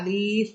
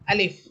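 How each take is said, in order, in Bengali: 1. স্বরটি টেনে লম্বা করে পড়তে হবে। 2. স্বরটি ছোট রেখে পড়তে হবে, টেনে পড়তে হবে না। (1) "এভাবে আলিফ বলে টানা যাবে না" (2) "টান ছাড়াই পড়তে হবে, আলিফ এভাবে"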